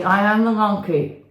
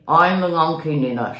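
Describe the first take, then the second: First: Unconvincing monkey voice; half-hearted monkey voice; weak monkey voice. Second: Louder, firmer monkey voice; convincing monkey voice. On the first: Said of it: "Tell me more convincingly". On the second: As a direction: say it like you mean it, as monkey. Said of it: "Talk to me". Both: Shown as a demonstration.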